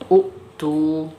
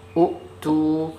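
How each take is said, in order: No difference in how they are said.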